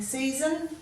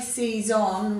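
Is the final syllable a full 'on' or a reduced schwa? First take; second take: schwa; full on. First: The last syllable is reduced to a schwa. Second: The last syllable has a clear 'on' vowel. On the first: "many of us give it a schwa sound" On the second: "you'll hear the O N"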